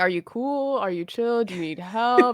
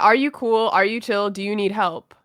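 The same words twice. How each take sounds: First: The voice sounds calm, soft and comforting. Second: The voice sounds plain and matter-of-fact. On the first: The speaker calls it right. "In a very chill" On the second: The speaker calls it wrong. "not with the tone that I just said"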